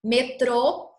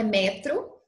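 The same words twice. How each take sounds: First: "Metrô" with the closed, stressed final TRÔ; stress on the last syllable. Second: "metro" with the stress moved to an open first MÉ; the wrong "metro", stressed up front; stress on the first syllable. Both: Shown as a demonstration. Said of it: "não é metro".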